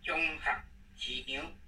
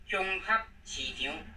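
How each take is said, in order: First: The syllable 合 is in a low tone. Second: The syllable 合 is not in a low tone. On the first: The speaker calls it right. "这个盒子要练第五声低音的" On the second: The speaker calls it wrong. "这是不对的"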